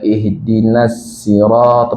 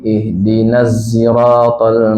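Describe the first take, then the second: First: Sirata begins with an s sound. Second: Sirata begins with a z sound. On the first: "pakai sin" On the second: "baca zai"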